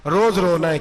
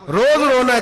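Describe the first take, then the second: First: Said in the usual way. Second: रोज रोना है thrown out higher and louder; rising preacher's fervour. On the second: Shown as a demonstration. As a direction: hit रोज hard as the refrain peaks. Building sermon list of complaints.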